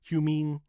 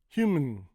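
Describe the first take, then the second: First: The second syllable has a full 'ee' vowel. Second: The second syllable's vowel is cut out. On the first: The speaker calls it wrong. "does not sound good" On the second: The speaker calls it right. "just cut the vowel"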